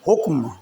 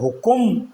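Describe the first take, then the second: First: The k and m sounds have no vowel between. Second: A vowel is added between k and m. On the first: The speaker calls it right. "ये काफ और मीम दोनों साकिन हैं" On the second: The speaker calls it wrong. "हुकुम कहकर नहीं बोलना"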